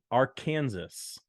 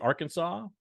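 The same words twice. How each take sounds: First: "Arkansas" said as ar-KAN-zus, drawn out; "Arkansas" ending in a sounded "zus", stress on KAN; mispronounced Arkansas. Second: "Arkansas" said as AR-kun-saw; "Arkansas" stressed on the first syllable, ending "saw"; standard pronunciation. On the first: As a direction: say "Arkansas" like "Kansas" with "ar" in front, slowly. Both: Shown as a demonstration. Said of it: "Some people pronounce it Arkansas".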